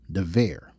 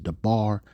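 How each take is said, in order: First: It is said in the modern Hebrew way. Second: It is said in the older Paleo Hebrew way. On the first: "The more modern Hebrew, they pronounce it dever" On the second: "Paleo Hebrew word is debar"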